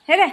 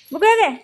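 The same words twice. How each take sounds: First: Said in the usual way. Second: High, louder call of बुगो with हे घे; sing-song call of बुगो to come take it; calling the pet. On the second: Real, not acted. Owner calls pet Bugo to take the treat, high louder call.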